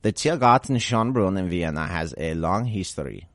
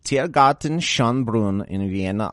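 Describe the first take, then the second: First: Tiergarten Schönbrunn given a put-on German sound; German attempt again. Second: Tiergarten Schönbrunn said with a tried German pronunciation; German attempt. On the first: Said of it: "I'm not gonna keep doing this". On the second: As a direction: try Tiergarten Schönbrunn the German way, rolling it out carefully. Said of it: "Let's see if I can pull this off". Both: Shown as a demonstration.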